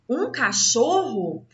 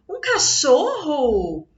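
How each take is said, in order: First: It is said with a scornful, contemptuous tone. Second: It is said with a happy, cheerful tone. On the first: The speaker looks down on the dog. "está indicando que é para ele falar com desprezo" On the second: The speaker is pleased about the dog. "demonstra mais alegria"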